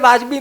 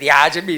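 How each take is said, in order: First: It starts with plain v, no y-glide. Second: It starts with v followed by a y-glide. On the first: The older, traditional form of the word. The speaker calls it right. "પહેલા વાજબી જ બોલાતું હતું" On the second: An over-corrected form meant to sound more proper. The speaker calls it wrong. "Hyper correction"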